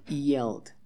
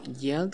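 First: "yelled" starting like a vowel I, ee-ELD; "yelled" with a soft vowel-like Y, voice falling; soft-Y pronunciation. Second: "yelled" with a strong consonant Y at the start; "yelled" overdoing the initial Y; wrong hard-Y pronunciation. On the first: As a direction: say "yelled" gliding in from an "ee" sound. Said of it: "como una I". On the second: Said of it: "no es como yelled". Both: Shown as a demonstration.

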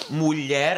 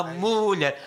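First: "mulher" stressed on the final syllable "lher". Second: "mulher" with the first syllable "mu" stressed and stretched. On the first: Musician explaining correct metrics, "mulher" stressed on its last syllable "lher". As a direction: keep "mu" short, land on "lher" in "mulher". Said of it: "a sílaba tónica está no mulher". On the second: Musician imitating a singer's misplaced accent, "mulher" stressed on "mu". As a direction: lean high and long on "mu" in "mulher". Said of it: "ele acentua o mu". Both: Shown as a demonstration.

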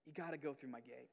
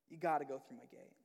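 First: Hushed Jesus. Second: Said in the usual way. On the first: Retold or imitated. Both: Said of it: "Jesus is in here and saying".

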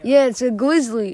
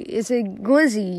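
First: "grizzly" said with a clear r, the proper bear name. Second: "glizzy" with an l in place of the r, like the slang word. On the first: Correcting his friend: "grizzly" with the r. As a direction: say "grizzly" properly, not "glizzy". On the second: Teasing his friend's slip: "glizzy" with an l. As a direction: swap the r for an l: "glizzy". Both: Shown as a demonstration.

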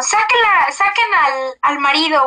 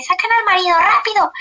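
First: Grito retomado, más agudo; grito del doctor. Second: Grito agudo y urgente, imitado; grito del doctor. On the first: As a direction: imita el grito urgente del médico. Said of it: "escuché que el doctor gritó como". (el doctor grita que saquen al marido) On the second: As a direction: repite la orden a gritos, con prisa. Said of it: "y así". (el médico ordena sacar al marido, gritando) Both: Retold or imitated.

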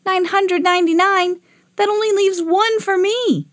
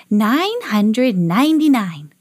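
First: Put-on high-pitched boyish protest; dismayed disbelief. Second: Slow, deliberate alien count; Marsmen answer. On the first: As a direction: repeat it back aghast. Boy dismayed at the number. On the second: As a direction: intone the number like Martians. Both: A narrator's reading.

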